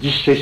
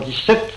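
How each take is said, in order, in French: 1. Dix-sept n'est pas accentué ; l'accent tombe sur le mot suivant. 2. Dix-sept est accentué sur sa dernière syllabe. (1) "Vous dites 17 sous" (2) "vous dites en franc 17"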